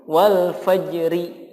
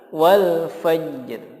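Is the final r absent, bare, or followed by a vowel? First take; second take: vowel; bare. First: The final r is followed by a vowel. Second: The final r is said with no vowel. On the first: The speaker calls it wrong. "Atau dibaca diharokati" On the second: The speaker calls it right. "yang betul adalah wal fajr"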